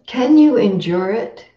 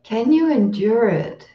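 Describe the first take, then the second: First: Rising question on "Can you endure it?", "you" stressed. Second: "Can you endure it?" settling down at the end, "you" stressed; gentle sincere question. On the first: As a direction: ask "Can you endure it?" as a real open question, lifting at the end. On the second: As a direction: ask "Can you endure it?" kindly, letting it fall, not dismissive. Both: Retold or imitated. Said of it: "not said in a dismissive way".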